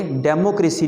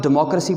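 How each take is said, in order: First: डेमोक्रेसी as "demo-CRAY-si"; wrong pronunciation. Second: डेमोक्रेसी as "di-MOK-ruh-si"; correct pronunciation. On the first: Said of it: "नहीं पढ़ोगे". (गलत तलफ़्फ़ुज़, डेमोक्रेसी यानी "डेमो-क्रेसी") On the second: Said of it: "इसको आप डेमोक्रेसी पढ़ोगे". (सही तलफ़्फ़ुज़, डेमोक्रेसी यानी "डिमॉक्रसी") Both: Shown as a demonstration.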